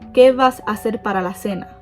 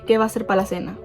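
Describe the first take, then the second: First: The word vas keeps its final s sound. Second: The word vas loses its final s sound. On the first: The speaker calls it wrong. "We don't say that" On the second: The speaker calls it right. "We would say"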